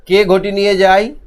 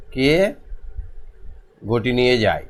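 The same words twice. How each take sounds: First: "কে ঘটি নিয়ে যায়" higher, louder, rising at the end; question intonation. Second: "কে", long pause, then "ঘটি নিয়ে যায়" lower and falling; broken-up dictation. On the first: Teacher posing question two to pupils, "কে ঘটি নিয়ে যায়" rising. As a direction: ask "কে ঘটি নিয়ে যায়" with a raised, lifting tune. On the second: Teacher dictating question two, "কে ... ঘটি নিয়ে যায়" in pieces. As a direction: split "কে" from "ঘটি নিয়ে যায়" and let it fall. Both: Shown as a demonstration.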